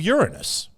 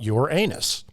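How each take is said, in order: First: It is said to sound like 'urine-us'. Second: It is said to sound like 'your anus'. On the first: "something that contains the word urine" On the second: "something that contains the word anus"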